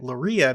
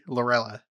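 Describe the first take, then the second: First: The middle sound is a Spanish-style Y sound. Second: The middle sound is a clear L sound. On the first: The speaker calls it wrong. "I have been pronouncing it Loria because I assumed it was like a Spanish last name" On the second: The speaker calls it right. "so noted"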